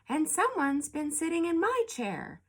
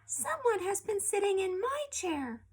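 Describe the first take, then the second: First: It is said in a medium-sized voice. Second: It is said in a small, babyish voice. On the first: Mother Bear is speaking. "in a middle-sized voice" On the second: Baby Bear is speaking. "in a little baby voice"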